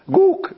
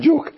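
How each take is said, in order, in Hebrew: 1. המילה מתחילה בצליל g. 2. המילה מתחילה בצליל j. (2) "לא יודעים להגיד ג'וק"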